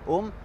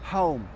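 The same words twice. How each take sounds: First: The word starts without any h sound. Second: The word starts with a breathed h sound. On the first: The speaker calls it wrong. "On ne dit pas home" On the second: The speaker calls it right. "on dit home... on aspire en même temps"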